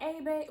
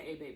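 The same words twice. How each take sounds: First: High and sweet. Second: Quiet. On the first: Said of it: "I was like". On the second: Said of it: "I didn't say". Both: Retold or imitated.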